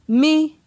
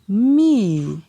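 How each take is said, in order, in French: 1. Il est prononcé sur un ton moyen. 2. Il est prononcé sur un ton descendant. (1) "Ton moyen" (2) "Ton descendant"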